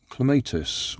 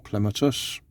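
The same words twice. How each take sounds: First: "Clematis" with a long AY, cle-MAY-tis; alternative pronunciation. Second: "Clematis" stressed up front, CLEM-uh-tis; alternative pronunciation. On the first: Introducing the flower kit, "Clematis" as cle-MAY-tis. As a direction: say "Clematis" stressed on the middle syllable. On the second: Offering viewers the other option, "Clematis" as CLEM-uh-tis. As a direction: say "Clematis" with a short, unstressed middle syllable. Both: Shown as a demonstration. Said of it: "depending on how you like to pronounce it".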